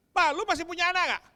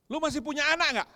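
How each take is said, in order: First: High, loud accusing cry at dad; louder angry shout. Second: Put-on loud, sharp reproach from a hurt teenage daughter; angry daughter shouting. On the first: Retold or imitated. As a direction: hurl it at him even harder. Daughter's question retold again. (teriakan marah yang lebih keras) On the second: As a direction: throw the question at dad, hurt and defiant. Daughter confronts her father. (anak perempuan membentak ayahnya)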